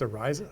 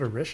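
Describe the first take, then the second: First: The middle consonant has no sh sound. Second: The middle consonant is a sh sound. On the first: The speaker calls it right. "It's Ariza. The H is silent" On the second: The speaker calls it wrong. "Why did I say that wrong? I said Orisha"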